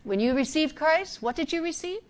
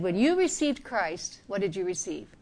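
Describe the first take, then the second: First: "what did you receive" with "you" pushed up and rising at the end; misquoted, stressing "you" with a lift; wrong reading. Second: "what did you receive" with "did" leaned on and the line falling; corrected quote, "did" stressed, settling down; correct reading. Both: Shown as a demonstration. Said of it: "He didn't say it that way".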